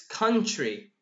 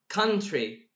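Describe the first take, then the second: First: The t and r blend into a ch sound. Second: The t and r are said as plain tr. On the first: The speaker calls it right. "the T R here turned to che" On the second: The speaker calls it wrong. "it's not country"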